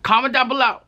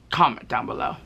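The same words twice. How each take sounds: First: Excited callout. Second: Said in the usual way. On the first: Shown as a demonstration. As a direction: pump up the call to comment.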